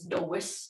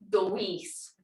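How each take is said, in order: First: The vowel is kept short. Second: The vowel is held long. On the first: The speaker calls it wrong. "If I don't put that" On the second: The speaker calls it right. "With that long E"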